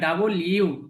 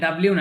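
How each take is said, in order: First: The letter name is said as two separate words. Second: The letter name is blended into one short word. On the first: The speaker calls it right. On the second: The speaker calls it wrong. "কিন্তু এটা ডাব্লিউ না"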